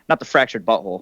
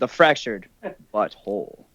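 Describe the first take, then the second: First: The phrase is said flatly, without special inflection. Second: The phrase is said with a marked, knowing inflection. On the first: The speaker calls it wrong. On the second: The speaker calls it right. "like you got to say it"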